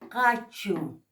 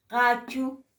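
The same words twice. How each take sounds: First: "Cachu" with a rough fricative k, falling; Aymara pronunciation. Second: "cachu" raised higher, ending on a rise; Aymara pronunciation. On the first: Teacher modelling Aymara word for students, careful fricative. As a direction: say "Cachu" slowly, rasping the first sound. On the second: Teacher repeating the word for students, higher rising tune. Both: Shown as a demonstration. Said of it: "por eso es con sonido fricativo".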